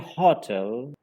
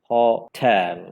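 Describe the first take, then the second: First: The stress is on the first syllable. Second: The stress is on the second syllable. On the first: The speaker calls it wrong. "giving the stress on the first syllable" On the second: The speaker calls it right. "the second syllable should be spoken more prominently"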